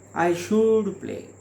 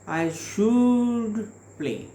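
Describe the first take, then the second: First: The pitch goes down at the end. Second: The pitch goes down and then up. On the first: The speaker has decided in his mind to play. "here is the lower tone" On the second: The speaker is willing to play. "the falling rising tone is used there"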